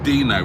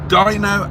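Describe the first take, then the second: First: The first vowel sounds like 'ee'. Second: The first vowel sounds like 'eye'. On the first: The speaker calls it wrong. "which is how I pronounce. Sorry, I was pronouncing it in the Italian way" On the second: The speaker calls it right. "It's Dino as in rhino"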